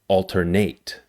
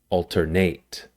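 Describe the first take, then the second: First: The stress is on the last syllable. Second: The same.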